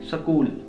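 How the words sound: It is said in a Punjabi accent. "In Punjab, we don't pronounce the word school as school, but school"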